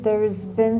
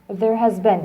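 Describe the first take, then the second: First: The verb is contracted into the word before. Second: The verb is said as a separate full word. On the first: "This is a shorter form of there has been" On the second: "You can say it, there has been"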